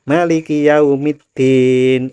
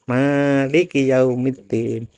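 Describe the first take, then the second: First: The first vowel of Maliki is short. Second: The first vowel of Maliki is long. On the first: It means the king of the Day of Judgement. "Kalau manya pendek" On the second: It means the owner of the Day of Judgement. "kalau dibaca panjang"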